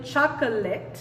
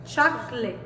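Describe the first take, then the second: First: Chocolate in three syllables, schwa kept in the middle; fully sounded syllables. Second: Chocolate in two syllables, "chok-lit"; dropped schwa. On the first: Teacher showing students what isn't said, chocolate in three syllables. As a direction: say chocolate as choc-uh-let, middle vowel sounded. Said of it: "no estamos diciendo chocolate". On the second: Teacher showing students what is really said, chocolate as chok-lit. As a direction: say chocolate with the middle o erased. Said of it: "Estamos diciendo". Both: Shown as a demonstration.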